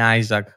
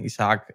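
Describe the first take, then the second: First: The name sounds like EYE-zak, two syllables. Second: The name sounds like ee-sa-AHK, three syllables. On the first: This is the original pronunciation. The speaker calls it right. "ενώ είναι Άιζακ" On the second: This is how most people say it. The speaker calls it wrong. "όλοι το λένε Ισαάκ"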